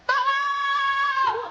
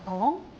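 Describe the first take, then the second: First: It is shouted at full volume. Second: It is called out fairly softly.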